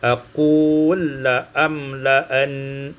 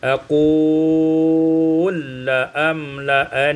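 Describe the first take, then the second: First: The lengthened vowel is held short. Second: The lengthened vowel is held medium length.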